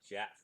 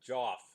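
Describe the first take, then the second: First: The name is said with an 'e' vowel, Jeff. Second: The name is said with an 'o' vowel, Joff. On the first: The speaker calls it right. "I should pronounce it Jeff" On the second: The speaker calls it wrong. "that's the way I'm pronouncing it"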